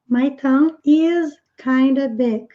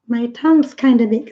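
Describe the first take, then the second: First: Tongue and is are said as separate words. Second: Tongue and is merge into one contracted word.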